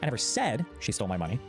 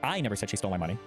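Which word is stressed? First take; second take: said; I. First: The stress is on the word 'said'. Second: The stress is on the word 'I'. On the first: It was implied but not said outright. "I might have implied it in some way, but I never explicitly said it" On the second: Someone else said it. "with the implication meaning that someone else said it"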